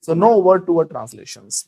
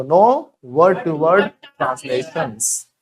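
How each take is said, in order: First: Very slow, word by word; slow teacher demo; slow model sentence. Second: Even slower, drawn-out no word to word; slow chant; very slow repeat. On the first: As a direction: drag each word for the class. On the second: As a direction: stretch every word for the class. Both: Shown as a demonstration. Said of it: "बोलो".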